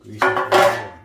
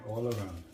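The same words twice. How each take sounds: First: Much louder, pushing the words out; emphatic loud instruction. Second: Said in the usual way. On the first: Real, not acted. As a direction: drive home "grease it all around". Stressing how to grease pan.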